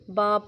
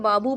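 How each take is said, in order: First: The word ends on a bare b sound. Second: The word ends with a short u vowel. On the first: The speaker calls it right. "बल्कि बाब पढ़ते हैं" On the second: The speaker calls it wrong. "अगर हम रुक रहे हैं तो बाबू पढ़ लें, एक पेश पढ़े, नहीं हम ऐसे नहीं करते"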